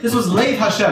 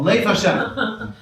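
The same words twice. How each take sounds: First: Said in the usual way. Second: Lev Hashem spelled out slowly, each syllable weighed; slow deliberate name. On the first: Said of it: "That's what it's called". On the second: Shown as a demonstration. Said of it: "That's what it's called, Lev Hashem".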